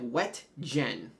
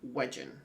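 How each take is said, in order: First: The middle is a separate t and hard g. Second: The middle is a soft j sound. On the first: It is read the way it is spelled. The speaker calls it wrong. "it looks like Wet Gen" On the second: It is the name's actual pronunciation. The speaker calls it right. "but I think it's Wedgen"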